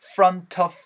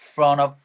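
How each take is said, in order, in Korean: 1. t는 발음되고 'of'로 이어집니다. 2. 'of' 앞에서 t는 빠집니다. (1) "T 사운드랑 of랑 연결되면은" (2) "T 사운드 날아갈 수 있다"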